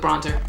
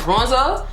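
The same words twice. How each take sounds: First: The word is said quickly and lightly. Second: The word is drawn out in a heavier accent. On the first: This is the usual everyday way. "like I would normally probably say bronzer, real quick" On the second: The speaker is a little tipsy. "But right now"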